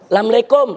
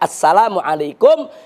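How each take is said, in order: First: It is said in a Betawi local style. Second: It is said in standard Arabic style. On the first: The speaker calls it wrong. "masyarakat Betawi nih, saking membudayanya jadi Assalamualaikum" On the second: The speaker calls it right. "Yang betul itu Assalamualaikum"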